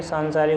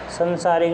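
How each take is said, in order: First: सांसारिक said with a long nasal saan, sansarik; correct spelling said aloud. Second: संसारिक said with a short sa, sənsarik; wrong spelling said aloud. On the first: Teacher giving the correct spelling, long saan. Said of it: "होता है". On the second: Teacher showing the incorrect spelling, short sa. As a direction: say संसारिक with short first vowel, the wrong form. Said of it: "नहीं होता". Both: Shown as a demonstration.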